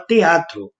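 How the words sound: It is said with a Pará accent. "O paraense fala teatro"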